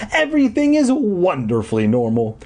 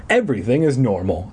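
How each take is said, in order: First: High, elated emphasis on "wonderfully"; gleefully pitched-up reassurance. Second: Said in the usual way. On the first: A narrator's reading. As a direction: start EVERYTHING high and lean joyfully on "wonderfully". Elated repeat to herself. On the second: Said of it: "I told myself".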